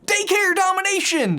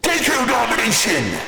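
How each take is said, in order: First: It is said in a plain, casual way. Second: It is said in a dramatic, menacing way. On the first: The speaker calls it wrong. "that really doesn't sound nearly as dangerous" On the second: The speaker calls it right. "There we go, that's better"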